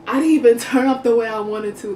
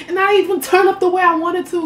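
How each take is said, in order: First: Said in the usual way. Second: Higher and louder, venting; frustrated complaint. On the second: Retold or imitated. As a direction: complain it out loudly. Quoted inner complaint.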